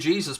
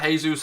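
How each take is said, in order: First: The name is said with an English pronunciation. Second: The name is said with a Spanish pronunciation. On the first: "that's how I pronounce it" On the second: "You can go all Spanish and call it Jesus"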